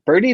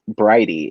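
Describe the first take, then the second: First: The first syllable sounds like 'bird'. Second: The first syllable sounds like 'bride'. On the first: The speaker calls it wrong. "when I was first like looking over it" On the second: The speaker calls it right. "it's pronounced Bridie"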